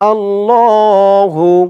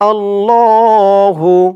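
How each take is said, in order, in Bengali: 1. শব্দটি স্পষ্ট 'hu' ধ্বনি দিয়ে শেষ হয়। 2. শব্দটি স্পষ্ট 'hu' ধ্বনি দিয়ে শেষ হয়।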